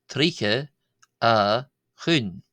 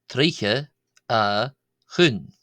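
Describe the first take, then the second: No difference in how they are said.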